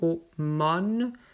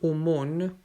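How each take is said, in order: First: The last-syllable vowel is an open O. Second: The last-syllable vowel is a closed O. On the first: "le O N E je le prononce ouvert" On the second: "mais on peut dire aumône, les deux sont justes"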